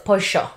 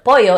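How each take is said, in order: First: The double L sounds like sh. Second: The double L sounds like a y.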